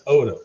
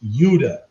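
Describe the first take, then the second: First: The name starts with a plain vowel sound. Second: The name starts with a 'y' sound. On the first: The speaker calls it wrong. "I pronounced it Oda" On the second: The speaker calls it right. "it's supposed to be pronounced Yuda"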